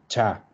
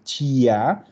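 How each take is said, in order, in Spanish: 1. No se oye ningún sonido i antes de la a. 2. Se oye un sonido i antes de la a. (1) "desaparece la i, decimos cha" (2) "no vamos a decir chia"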